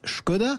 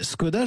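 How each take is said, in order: First: The name is pronounced the Czech way. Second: The name is pronounced the French way. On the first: "les Tchèques disent Škoda" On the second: "les Français disent Skoda"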